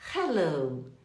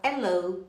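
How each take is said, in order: First: The word starts with an audible h sound. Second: The word starts without an h sound. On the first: The speaker calls it right. "você fala hi, hello" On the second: The speaker calls it wrong. "você não fala hello"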